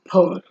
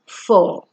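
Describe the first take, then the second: First: It begins with a popping p sound. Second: It begins with a hissing f sound. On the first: The speaker calls it wrong. "and not por" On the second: The speaker calls it right. "It is four"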